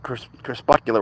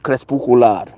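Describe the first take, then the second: First: It is pronounced with English sounds. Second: It is pronounced with Spanish sounds. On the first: "which in English is like crepuscular or something" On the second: "the word in Spanish is crepuscular"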